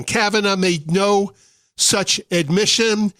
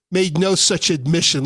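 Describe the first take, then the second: First: Kavanaugh and admission each hit hard, words spaced out; slow down and press on "Kavanaugh" and "admission"; deliberate, spelled-out restatement; slow emphatic repeat. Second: Said in the usual way. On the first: Shown as a demonstration. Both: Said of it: "Let me say that again".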